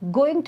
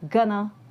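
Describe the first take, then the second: First: Both words are said in full. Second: The words are reduced to gonna.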